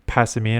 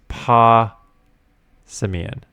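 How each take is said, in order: First: The first syllable does not sound like paw. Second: The first syllable sounds like paw. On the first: The speaker calls it wrong. "I used to say Passimian or something like that" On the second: The speaker calls it right. "They say it's Pa Simian. Like a paw"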